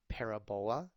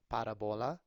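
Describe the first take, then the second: First: It is said in a non-American English way. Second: It is said with a Spanish pronunciation. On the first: "If you go to other English-speaking countries in the world, you might hear someone say" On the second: "if you say it in Spanish"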